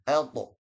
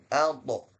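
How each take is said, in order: Both takes have the same delivery.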